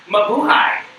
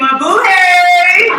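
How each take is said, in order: First: It is said in a plain, ordinary way. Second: It is said in a flamboyant, sparkly way.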